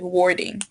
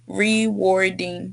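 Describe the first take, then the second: First: The first syllable is left out. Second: Every syllable of the word is said. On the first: The speaker calls it wrong. "I think you pronounced it like warding" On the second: The speaker calls it right. "just make sure you pronounce the word completely"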